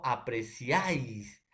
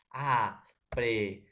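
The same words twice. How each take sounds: First: Said in the usual way. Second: Apreciáis drawn out slowly, syllable by syllable; teacher spells out apreciáis by syllables; slow syllable split. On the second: Shown as a demonstration. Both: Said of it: "Por ejemplo, tengo".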